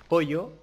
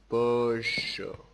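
First: It is said with a Spanish accent. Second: It is said with an Argentine accent.

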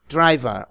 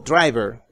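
First: It is said in a British accent. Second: It is said in an American accent.

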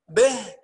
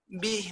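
First: The vowel is halfway between a and i. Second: The vowel is a full, clear i sound. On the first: The speaker calls it wrong. "ما نقولش به به كده خطأ" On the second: The speaker calls it right. "خد بالك ربه به"

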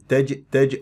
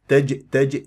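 Both takes have the same delivery.

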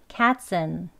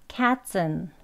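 Both takes have the same delivery.

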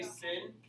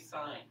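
First: The vowel is short, rhyming with pin. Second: The vowel is long, rhyming with pine. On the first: The speaker calls it wrong. "We don't say sin" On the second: The speaker calls it right. "we say sign"

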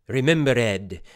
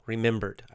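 First: The -ed ending is said as its own syllable. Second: The -ed ending blends into the word. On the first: This imitates old-fashioned theatrical over-pronunciation. "these Shakespearean actors, they'll say remembered. They're kind of very over-pronouncing every single little sound" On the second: This is the everyday way of saying it. "So we say remembered"

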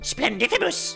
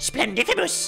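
First: It is said in a put-on goblin voice. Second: The same.

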